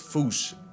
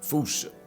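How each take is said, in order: First: It is said in the Malagasy-style way. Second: It is said in the Malagasy-style way.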